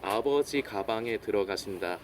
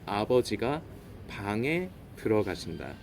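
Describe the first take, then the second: First: The break comes before 'ga', grouping 'gabang'. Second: The break comes after 'ga', grouping 'abeojiga'.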